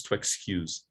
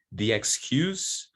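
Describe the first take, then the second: First: "to excuse" ending in a buzzed z; voiced verb ending. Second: "the excuse" ending in a hissed s; voiceless noun ending. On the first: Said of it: "it's voiced". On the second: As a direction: say noun "excuse" slowly with a final s. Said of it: "it's voiceless". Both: Shown as a demonstration.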